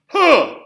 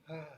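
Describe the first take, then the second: First: It is a hard, forceful, pressed sound. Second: It is a soft, breathy, light sound. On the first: "That's hard, powerful subglottal pressure. So we're putting lots of air under those folds" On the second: "That's kind of an airy, light tone"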